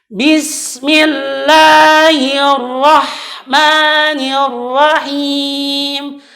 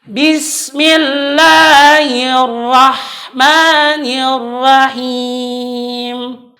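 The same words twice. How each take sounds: The two takes are said the same way.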